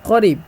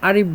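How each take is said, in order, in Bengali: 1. এটি একটি "q" ধ্বনি দিয়ে শুরু হয়। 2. প্রথম ব্যঞ্জনবর্ণটি বাদ দেওয়া হয়।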